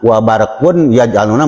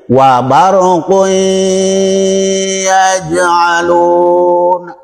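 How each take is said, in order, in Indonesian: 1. Bunyi n tetap terdengar sebelum yaj'aluna. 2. Bunyi n menyatu dengan y yang mengikutinya.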